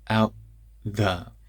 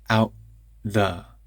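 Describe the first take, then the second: Both takes have the same delivery.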